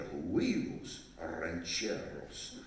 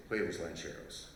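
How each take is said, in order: First: "huevos rancheros" said slowly, each syllable savoured, with a rolled Spanish "r"; proper Spanish. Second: "huevos rancheros" in flat English sounds, with "huevos" as "hway-vos"; wrong way. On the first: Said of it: "you have to say it like that". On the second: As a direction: mangle "huevos rancheros" like a gringo, lower and a bit softer. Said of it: "That doesn't work". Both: Shown as a demonstration.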